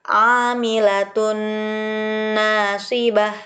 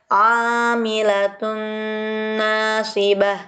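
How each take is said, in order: The two takes are said the same way.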